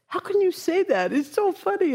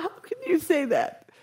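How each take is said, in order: First: Scoffing question, pitched higher; mocking disbelief. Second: Laughing through the question; laughing jeer. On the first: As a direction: sneer at the Buddha's claim. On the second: Retold or imitated. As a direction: jeer while still laughing. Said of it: "all this crew is like".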